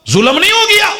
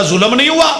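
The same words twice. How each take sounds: First: Sky-high indignant rhetorical question; indignant high cry. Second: Said in the usual way. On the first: Acted. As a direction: voice leaps way up in mock outrage. Repeats question, mock outrage.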